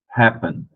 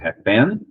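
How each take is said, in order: First: The stress is on the first syllable. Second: The stress is on the last syllable. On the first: The speaker calls it right. "a primeira é a mais forte" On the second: The speaker calls it wrong. "aí a sílaba mais forte seria a última"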